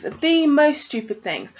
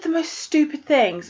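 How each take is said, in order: First: THE drawn out slowly as "thee"; stress on THE. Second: Said in the usual way. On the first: Real, not acted. Reader venting about a heroine's stupid choices, stress on THE. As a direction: lean slowly on THE, stretching it for emphasis.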